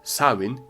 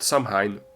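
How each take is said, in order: First: It is said the Scottish Gaelic way. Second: It is said the way it is spelled. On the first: The speaker calls it right. "in Scottish Gaelic" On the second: The speaker calls it wrong. "like it's written"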